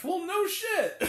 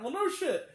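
First: Slow, higher, drawn-out sarcasm; sarcastic. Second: Said in the usual way. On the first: Retold or imitated. Reviewer sarcastically answers the movie line, slow. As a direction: stretch it out with disbelief.

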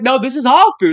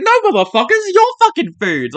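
First: Insistent mock claim with "our" stressed; higher, insistent imitation, weight on "our"; retold insistence. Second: High, heated comeback hitting "your"; mock-outraged, pitched up, "your" punched; stress on YOUR. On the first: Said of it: "he's like". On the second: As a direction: argue back, throwing "your" at them. Argues back, your against our.

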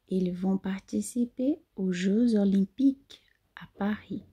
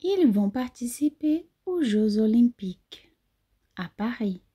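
First: Whisper. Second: Said in the usual way. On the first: Shown as a demonstration.

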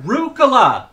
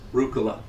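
First: Rucola yelled high and loud with a falling end; calling out. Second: Said in the usual way. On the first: Pretend. Dad shouting his daughter's name across the park.

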